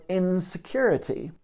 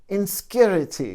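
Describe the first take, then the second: First: Said in the usual way. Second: INSECURITY squeezed to "in-skyur-ity"; imitated accented pronunciation. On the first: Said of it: "the way he says it". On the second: Quoting a Buddhist teacher's lecture, "Insecurity" in his accented, squeezed pronunciation. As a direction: say "Insecurity" with the second vowel dropped, "inskyurity". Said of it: "with his accent, he does say".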